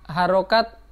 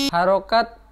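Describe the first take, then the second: The two takes are said the same way.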